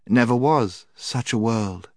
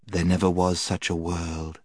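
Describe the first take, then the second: First: High, slow obedient echo; enchanted children. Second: Lulling witch. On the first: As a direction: parrot it back in a child's pitch. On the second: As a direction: plant the idea calmly. Witch prompts the enchanted children. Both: A narrator's reading.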